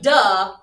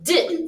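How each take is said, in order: First: A short vowel follows the d sound. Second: The d sound is clipped with no vowel. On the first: The speaker calls it wrong. "we don't want duh" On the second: The speaker calls it right. "we want D"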